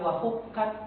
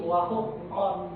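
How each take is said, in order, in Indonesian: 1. Vokalnya terdengar tipis dan ringan. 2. Vokalnya terdengar tebal dan berat. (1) "bukan wahukat" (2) "suaranya itu tebal"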